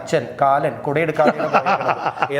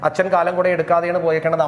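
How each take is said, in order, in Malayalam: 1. വാക്കുകൾ വ്യക്തമായ ഇടവേളകൾകൊണ്ട് വേർതിരിഞ്ഞിരിക്കുന്നു. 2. വാക്കുകൾ ഇടവേളയില്ലാതെ തമ്മിൽ ചേർന്നാണ് പറയുന്നത്.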